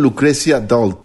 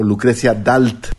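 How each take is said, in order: First: The name is pronounced with English sounds. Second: The name is pronounced with Spanish sounds.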